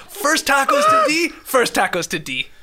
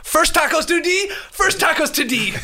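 First: Put-on quoting Jake's odd accent again to show how he sounded; Jake's accent imitation. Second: High-pitched imitation of Jake's odd accent. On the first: Mocking Jake's odd accent a second time while laughing. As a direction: repeat his odd-accent line, higher on the first half. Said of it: "that was the worst accent ever". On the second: Mocking Jake's odd accent when he names the first tacos. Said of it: "he goes, uh".

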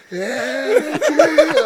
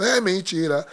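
First: Grito agudo e esticado, de gozação; berro do pai imitado. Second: Bronca encenada, ainda contida; bronca do pai imitada. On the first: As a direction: imite o pai berrando, arrastando muito as vogais. Pai aponta o baixista e repete. (berro exagerado e prolongado) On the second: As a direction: imite um pai começando a reclamar. Pai reclama do baixista, primeira vez. (reclamação imitada, sem gritar) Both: Retold or imitated.

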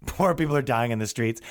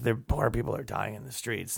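First: Said in the usual way. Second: Put-on low, much softer drunk mumble; lightly voiced drunk muttering. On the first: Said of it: "what this march is about". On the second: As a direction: mutter under your breath, drunk. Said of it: "muttering about poor people".

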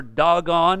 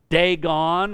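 First: Dagon said as DAH-gon; alternative pronunciation. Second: Dagon said as DAY-gon; first pronunciation. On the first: Preacher offering the other pronunciation of the god's name, Dagon as DAH-gon. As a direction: say Dagon with an open "dah" first syllable. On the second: Preacher showing how some people pronounce the god's name, Dagon as DAY-gon. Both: Shown as a demonstration. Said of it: "some people may pronounce".

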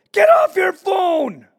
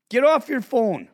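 First: Full higher, louder, slower shouted "Get off your phone!"; shouting "Get off your phone!" at a mom ignoring her kid; yell out the window. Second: "Get off your phone." said firm and somewhat louder, not a full yell; a calmer repeat of the order to the mom; firm call. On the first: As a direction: bellow it across the street at the mom. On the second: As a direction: repeat the order flatly, no longer screaming. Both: Retold or imitated. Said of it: "So I yell out the window".

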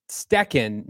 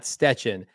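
First: "Stecken" said with a hard k; corrected pronunciation. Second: "Stetchen" said with a ch sound; mistaken pronunciation. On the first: Host reads out a chat correction of a surname, "Stecken" with k. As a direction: sound a k in the middle of "Stecken". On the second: Host repeats the mistaken surname to reject it, "Stetchen" with ch. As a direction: put a tch in the middle of "Stetchen". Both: Shown as a demonstration. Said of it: "not Stetchen".

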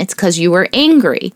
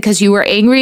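First: "It's 'cause you were angry." stated, falling on "angry"; statement tune. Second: "'Cause you were angry?" asked with a rising end on "angry"; question tune. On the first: Mother explains his reason back to him, falling statement. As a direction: settle it firmly, dropping on "angry". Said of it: "Well, that's a reason". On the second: Mother asks her son why he hit, rising question. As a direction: gently ask it, lifting on "angry". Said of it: "And I said". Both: Retold or imitated.

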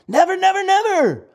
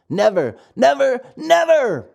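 First: Excited high never. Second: Put-on a boy's firm triple never, rising on the last; insist, never and never and never; emphatic promise. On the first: Acted. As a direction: squeal it out with glee. Lampwick's excited triple never. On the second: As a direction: friend reassures the puppet, firm and rising. Lampwick promises no school.

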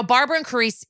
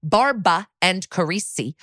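First: Rushed, fumbling "Barbara and Carisi"; "Barbara" with an extra R, "Carisi" cut short; botched names. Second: "Barbara" said as BAR-ba, "Carisi" as kuh-REE-see; separated, careful "Barbara and Carisi", without the extra R; careful corrected names. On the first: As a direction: trip quickly over "Barbara and Carisi", cutting off the end. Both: Real, not acted. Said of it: "I'm doing it so bad today".

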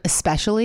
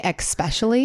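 First: Especially said as es-pesh-ully, no k sound; correct especially. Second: Especially said as ekspecially with an added ex; mispronounced especially. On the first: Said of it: "instead of especially". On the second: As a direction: say especially as eks-pesh-ully. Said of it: "I say especially". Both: Shown as a demonstration.

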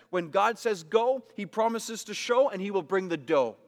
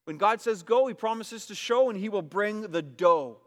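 First: Sing-song preacher's hook; rhythmic catchphrase. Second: Louder second take of the hook; louder repeat of catchphrase. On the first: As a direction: stress on go and show. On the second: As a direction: go punched loud and rising, show stretched. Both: Shown as a demonstration. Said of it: "You see that?".

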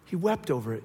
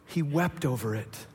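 First: Said in the usual way. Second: Slow solemn reading. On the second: Shown as a demonstration.

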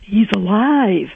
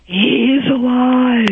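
First: Slow, lightly smoky psychic line; lighter psychic voice. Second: Slow, smoky, higher psychic pronouncement; raspy psychic voice. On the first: Quoting the psychic again on the radio, lightly smoky. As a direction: repeat the psychic's words, a little higher. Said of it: "she says". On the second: Imitating the psychic to the radio hosts, slow and smoky. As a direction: breathe it out like a chain-smoking psychic. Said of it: "From your phony smoke". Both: Retold or imitated.

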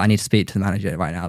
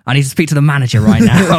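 First: Quick, low, quiet demand; understated Karen demand. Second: Louder, insistent mock complaint; Karen demand. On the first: Retold or imitated. Retelling a demand for the manager, understated Karen. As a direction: rattle it off low and soft. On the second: Demanding the manager after the club scuffle, full Karen. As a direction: act the entitled customer demanding service. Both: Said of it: "this is very Karen".

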